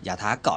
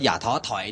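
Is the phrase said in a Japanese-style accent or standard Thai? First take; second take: Japanese-style; standard. First: It is said unclearly in a Japanese-style accent. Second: It is said clearly in standard Thai. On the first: "ก็จะกลายเป็นคำว่า, มันเป็นสำเนียงแบบญี่ปุ่น" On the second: "เวลาเขาพูดว่าอย่าท้อถอยเนี่ย"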